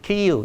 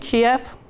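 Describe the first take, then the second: First: The name is said in its current form. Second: The name is said in its Russian form. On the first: This is the name used today. "in these days" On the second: This is the older Soviet-era name. "the Russian pronunciation of the, the capital city of Ukraine"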